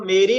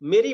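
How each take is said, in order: First: The first vowel is held long and full. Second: The first vowel is clipped short and light. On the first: This is how the syllables count in writing. The speaker calls it wrong. "वहां मेरी नहीं बोला जाता" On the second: This is how the syllables count to the ear. The speaker calls it right. "मेरी बोला जाता है"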